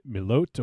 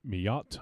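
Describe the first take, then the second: First: "Milot" said MIH-loht, long O, T sounded; tentative pronunciation. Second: "Milot" said mee-AHT, no L sound; alternative pronunciation. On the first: Trying a name they are unsure of, "Milot" as mih-LOHT. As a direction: say "Milot" with an "oh" in the second syllable. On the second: Offering another guess at the name, "Milot" as mee-AHT. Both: Shown as a demonstration. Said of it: "I'm not sure how you say it".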